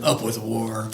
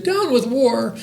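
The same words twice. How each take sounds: First: Low, restrained war chant; mock dinosaur shout. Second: High, piping chant; hooting little dinosaur. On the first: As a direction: chant it low like a mean tyrannosaurus. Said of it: "And they shouted". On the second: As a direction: hoot it like a young dinosaur singing along. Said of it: "and he hooted". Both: A narrator's reading.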